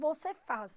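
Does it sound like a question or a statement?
statement. It is said with statement intonation. It states a fact. "podemos transformar qualquer afirmação em pergunta apenas com a entonação"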